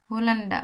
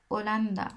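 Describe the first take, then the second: First: হোলান্ডা with a sounded h; the wrong way, হোলান্ডা with h; English-style pronunciation. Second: ওলান্দা without the h sound; the correct way, ওলান্দা with silent h; Spanish pronunciation. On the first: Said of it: "ইংলিশে করতেছি যে". (ভুল উচ্চারণ হোলান্ডা) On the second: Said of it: "স্প্যানিশে". (সঠিক Spanish উচ্চারণ ওলান্দা) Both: Shown as a demonstration.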